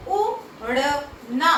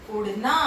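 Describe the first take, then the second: First: उड़ना drawn out slowly, syllable by syllable; slow syllable demo. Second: Said in the usual way. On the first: Shown as a demonstration. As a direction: stretch उड़ना slowly with a rise at the end. (उड़ना को धीरे-धीरे खींचकर, अंत में स्वर ऊपर) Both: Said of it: "ऐसे ही हम कई शब्द बना सकते हैं".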